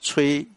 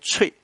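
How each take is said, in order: First: The word is said with a level tone. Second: The word is said with a falling tone. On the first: It is the verb to blow. "平声的时候就是我们吹啊" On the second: It names a wind instrument. "所以它当乐器的时候这个吹念去声，念脆啊"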